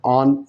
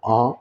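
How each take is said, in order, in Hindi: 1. शब्द का अंत साफ़ बोले जाने वाले न से होता है। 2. शब्द का अंत अनुनासिक स्वर से होता है। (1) "साफ आन बोलना पड़ेगा" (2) "नून गुना देना पड़ेगा"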